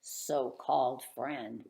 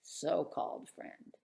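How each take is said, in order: First: Sarcastic. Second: "so-called" in a sarcastic whisper; hushed mocking aside; whispered sarcasm. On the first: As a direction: drag out "so-called" with disdain. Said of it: "Look at this so-called friend". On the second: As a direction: breathe it as a snide aside. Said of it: "another so-called friend". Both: Real, not acted.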